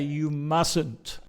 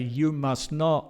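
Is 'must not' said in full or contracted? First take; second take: contracted; full. First: Must not is contracted into one word. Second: Must not is said as two full words. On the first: The speaker calls it right. "We say" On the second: The speaker calls it wrong. "we don't say"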